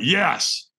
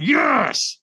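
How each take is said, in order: First: Said in the usual way. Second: High, strained push of effort; stronger yes. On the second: Retold or imitated. Firewalker answering the trainer's demand for more, stronger high-pitched yes. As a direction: force it out harder, pitched well up. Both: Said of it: "And he went, "Stronger".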